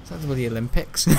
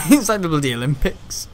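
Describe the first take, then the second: First: Said in the usual way. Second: Repeated louder through a laugh. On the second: Real, not acted. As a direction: laugh as you say it again.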